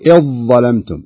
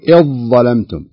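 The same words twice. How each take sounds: First: The dh sound merges fully into the following consonant. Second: The same.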